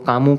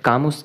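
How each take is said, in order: First: The name ends on a vowel, no s. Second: The name ends with an audible s sound. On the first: The speaker calls it right. "कामू ज़्यादा better रहता है क्योंकि pronunciation में इनको कामू कहा जाता है" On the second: The speaker calls it wrong. "Albert कामुस कह लो"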